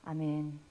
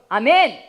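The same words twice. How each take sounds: First: It is said weakly, with little energy. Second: It is said strongly, with bold energy. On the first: The speaker is held back by fleshly thoughts. The speaker calls it wrong. "육신의 생각이 있으면 이렇게 돼요" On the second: The speaker has faith. The speaker calls it right. "여기 믿음이 있으면 아멘, 아멘 이렇게 하게 돼요"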